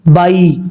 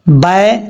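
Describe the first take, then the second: First: The vowel sounds like 'eye'. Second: The vowel sounds like 'ay' in 'say'. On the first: The speaker calls it right. "बाई ये ठीक तरीका है" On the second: The speaker calls it wrong. "बाय गलत है"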